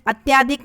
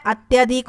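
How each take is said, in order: First: अत्याधिक with long tyaa; wrong form. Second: अत्यधिक with short tya; correct form. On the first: Teacher showing the mistake, अत्याधिक with long tyaa. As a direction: lengthen the middle vowel of अत्याधिक. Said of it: "अत्याधिक नहीं होता". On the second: Teacher giving students the answer, अत्यधिक with short tya. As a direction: keep the middle vowel of अत्यधिक short. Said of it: "अत्यधिक होता है". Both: Shown as a demonstration.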